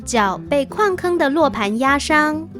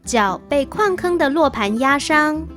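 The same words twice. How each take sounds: The two takes are said the same way.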